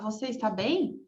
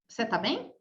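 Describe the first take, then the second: First: Every word is said fully. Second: The words are shortened together. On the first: "ao invés de você falar" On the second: "a gente encurta as palavras"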